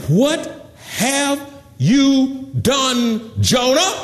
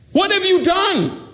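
First: Slow, high, word-by-word question; drawn-out demand. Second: High, quicker outcry; urgent demand. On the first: Terrified crew asks Jonah what he did, drawn-out demand. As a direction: stretch each word out, pitched high. Crew's question from the verse, acted. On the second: Terrified crew asks Jonah again, urgent high demand. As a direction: push the question up high, as a demand. Crew's question repeated, acted. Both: Acted.

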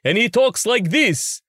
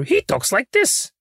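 First: High, slow Count Dracula parody; Count Von Count. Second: Very high, slow puppet voice; Grover. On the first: Puppeteer demonstrates a Dracula parody, high slow count voice. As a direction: draw it out high like a cartoon vampire count. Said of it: "we have a character who's Count Von Count". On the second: Puppeteer demonstrates his own character, high slow puppet voice. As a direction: stretch it out in a high-pitched Muppet voice. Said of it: "Gargur or Grover, he talks like this". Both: Shown as a demonstration.

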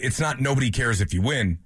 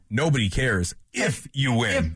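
First: Said in the usual way. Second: Slow, "if" stressed and "win" drawn out. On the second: Shown as a demonstration. Co-host restating the point, slowly stressing "if". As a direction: linger on "if you win". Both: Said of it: "Emphasis on the word if you win".

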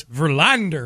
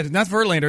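First: Verlander said lower, in Ozzie Guillen's pronunciation; imitated pronunciation. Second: Said in the usual way. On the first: Shown as a demonstration. Co-host corrects the name to Ozzie's version, imitated pronunciation. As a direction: say Verlander the way the clip's guest says it. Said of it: "That's a better way to say it". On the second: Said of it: "yeah, not Verlander, it's Verlander".

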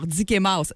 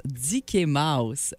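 First: Said in the usual way. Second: "Dicky Mouse" said slow and low; slow name announcement. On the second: Shown as a demonstration. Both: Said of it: "Voilà son nouveau nom".

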